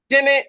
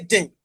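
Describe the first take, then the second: First: "dene" with the final vowel kept; Twi-style "dene", ending on a clear e; Twi pronunciation. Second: "din" with the final vowel dropped; Fanti-style "din", no vowel after the nasal; Fanti pronunciation. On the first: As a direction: say "dene" as two syllables. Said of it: "Twi will say dene". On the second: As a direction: say "din" ending on the n. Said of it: "Fanti will say din". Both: Shown as a demonstration.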